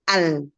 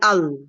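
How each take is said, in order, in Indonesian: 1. Vokal dan huruf l terdengar ringan dan tipis. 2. Vokal dan huruf l terdengar berat dan tebal. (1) "Jadi bacanya al" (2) "bukan al"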